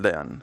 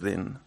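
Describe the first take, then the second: First: The name is said the Spanish way, like 'de-an'. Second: The name is said the English way, like 'deen'. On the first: "Yo en español" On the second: "si lo quieres pronunciar en inglés, pues es Din"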